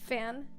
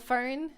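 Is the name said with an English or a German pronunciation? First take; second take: German; English. First: It sounds German, close to fan, no r. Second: It sounds like the English word fern, with r. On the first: The speaker calls it right. "it's pronounced Fan" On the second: The speaker calls it wrong. "which people call Fern, like a fern"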